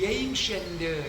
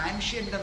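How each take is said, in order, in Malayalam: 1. ആദ്യ സ്വരം 'ay' പോലെ തോന്നുന്നു. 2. ആദ്യ സ്വരം 'ah' പോലെ തോന്നുന്നു. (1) "അല്ല ഏൻഷ്യന്റ്" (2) "നിങ്ങൾ ആൻഷ്യന്റ് എന്നാ പറയുന്നത്"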